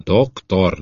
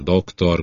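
First: Mocking "Doktor", dropping at the end. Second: Softer mocking "doktor" echoing the first, falling. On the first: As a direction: sneer the title "Doktor". (gúnyosan ejtett „Doktor”) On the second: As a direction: repeat "doktor" quieter, scornful. (halkabb, gúnyos „doktor” ismétlés) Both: A narrator's reading. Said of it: "gúnyolódott Mark".

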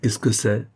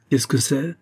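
First: Put-on brusque old woman's question; mildly rude, curt challenge at the door. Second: Higher, rising insistent question; rude repeat. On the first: Old servant challenges a visitor at the door, mildly rude. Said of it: "me dit d'un ton rude". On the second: Old woman repeats it while holding the door, insistently rude. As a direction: repeat the rude challenge, pitched up. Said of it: "Elle répéta". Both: A narrator's reading.

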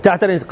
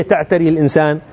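First: تعتري الإنسان. said as a short falling answer; confirming fall on تعتري الإنسان; answering statement. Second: Rising question tune on تعتري الإنسان؟; quizzing tune on تعتري الإنسان؟; asking question. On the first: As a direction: settle it firmly with تعتري الإنسان., dropping at the end. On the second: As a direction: ask تعتري الإنسان؟ to the class, lifting the end. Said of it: "أمور حسية ولا معنوية". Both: Shown as a demonstration.

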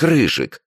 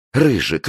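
First: Higher still, begging; girl begging her boyfriend not to fight; more desperate plea. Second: High, begging call of the name; girl pleading with her boyfriend. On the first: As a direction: plead even harder. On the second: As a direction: beg him to stop. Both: Acted. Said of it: "взмолилась девушка".

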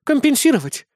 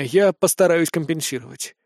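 First: Much higher, offended disbelieving echo. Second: Said in the usual way. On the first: A narrator's reading. Chris echoing the hero's promise, offended disbelief. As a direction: fling the word back, hurt. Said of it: "обиженно ответила Кристина". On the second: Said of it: "hero's offer, before echo".

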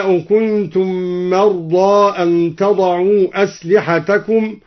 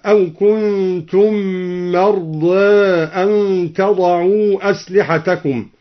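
First: Said in the usual way. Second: مرضى ending tilted halfway from ā toward ē; مرضى ending between a and e; slight imala. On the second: Shown as a demonstration. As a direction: give مرضى a light taqlil on its last vowel. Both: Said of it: "قلل مرضى هكذا".

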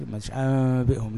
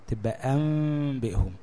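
First: أنبئهم said with a clear n sound instead of the hidden mim; wrong take. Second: أنبئهم with a hidden mim and nasal hum, lips nearly closed; the proper ghunna in أنبئهم; correct take. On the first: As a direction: mistaken reading of أنبئهم as nun, not mim. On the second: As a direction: say أنبئهم right with the m hummed through a tiny lip gap. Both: Shown as a demonstration. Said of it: "كده هتبقى نون مش ميم".

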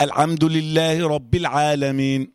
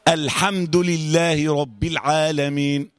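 First: "الحمد" with haa squeezed towards ayn; verse with a choked, voiced sound in "الحمد"; mispronounced haa. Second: Slow recitation, airy haa in "الحمد"; measured, drawn-out verse with a clean "الحمد"; clear breathy haa. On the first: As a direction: recite "الحمد" as if it were "العمد". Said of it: "طب لو قلت". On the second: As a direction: let breath run through the haa of "الحمد". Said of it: "حلوة يا إسلام؟". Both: Shown as a demonstration.

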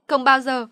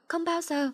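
First: Loud, raised cry; anguished yell. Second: High fading cry. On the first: Girl in the rain yelling at her mother, full voice. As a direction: hurl it out full voice. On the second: Girl in the rain trailing off high after yelling. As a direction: let the cry thin out high. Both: A narrator's reading. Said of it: "gào lên".

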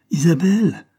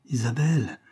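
First: Higher, louder cry full of anguish; loud, high anguished call. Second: First call, held back and uneasy; understated anxious call; anguished call. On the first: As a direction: cry out the name in alarm. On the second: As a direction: call out a name with mild anguish. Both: A narrator's reading. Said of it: "cria-t-il d'une voix pleine d'angoisse".

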